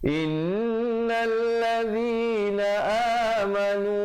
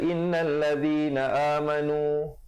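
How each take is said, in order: First: The nasal n sound is held for two beats. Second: The nasal n sound is cut short. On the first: The speaker calls it right. "dengungkan di situ wajibul gunnah dua harakat" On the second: The speaker calls it wrong. "Jangan baca"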